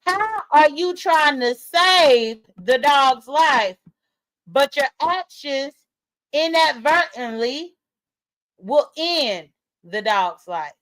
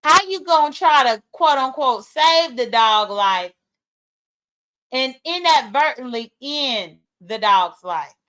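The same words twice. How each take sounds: First: Very slow, deliberate, each phrase set apart; spelled out slowly. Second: Pointed question. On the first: Shown as a demonstration. Streamer repeating her point for slow people in the back, slow and emphatic. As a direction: say it as if for slow listeners, pausing between phrases. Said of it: "for the slow people in the back". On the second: Real, not acted. Streamer challenging viewers over the dog's fate, pointed. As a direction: put the challenge pointedly, slowing toward the end.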